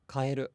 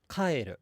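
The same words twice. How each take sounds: First: The pitch stays flat with no accent. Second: The pitch accent falls on the first beat. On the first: It means change. "It's flat" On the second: It means go home. "with the accent on the first mora"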